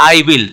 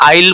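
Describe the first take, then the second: First: "I will" as two whole words; full uncontracted form. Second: "I will" said as I'll, w dropped; contracted form. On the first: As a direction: sound the w in "I will". ("I will" को पूरा, अलग-अलग बोलें) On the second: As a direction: merge "I will" into one syllable. ("I will" को मिलाकर आइल बोलें) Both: Shown as a demonstration. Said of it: "तो I will बोलते हैं इसको".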